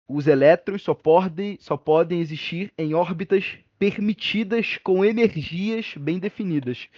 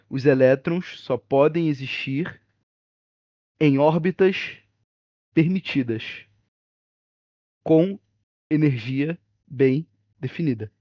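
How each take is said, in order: First: It is said at a normal speed. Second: It is said slowly and carefully.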